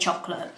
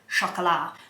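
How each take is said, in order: First: The word is said with an English pronunciation. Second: The word is said with a French pronunciation. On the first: It sounds ordinary. The speaker calls it right. "So I'm gonna say chocolate" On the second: It sounds pretentious. The speaker calls it wrong. "you sound like a knob when you say chocolat"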